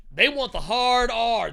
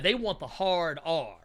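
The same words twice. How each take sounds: First: Higher, louder and slower, leaning on "hard R"; emphatic slow repeat of "hard R"; stressed repeat. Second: Said in the usual way. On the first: Real, not acted. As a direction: hammer home "They want the hard R.".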